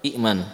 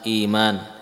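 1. Hamzah mengikuti vokal pertama. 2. Vokal panjang menggantikan hamzah. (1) "asalnya apa?" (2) "kalimat iman"

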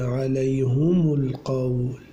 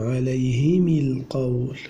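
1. تحمل الهاء والميم الحركة 'u'. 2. تحمل الهاء والميم الحركة 'i'. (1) "ويعقوب بضمهما" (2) "أبو عمرو بكسر الهاء والميم"

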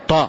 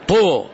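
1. الحركة منفرجة، والشفتان غير مستديرتين. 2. الحركة مستديرة، والشفتان مدفوعتان إلى الأمام. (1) "طو يعني طاء" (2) "يقول لك طو طو ضم فمك، هذا غير صحيح"

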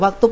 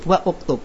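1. Kata-katanya menyambung tanpa hentian glotis sama sekali. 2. Hentian glotis dan 'u' memisahkan kedua kata. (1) "Yang harusnya membaca waktub" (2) "menjadi wa'uktub"

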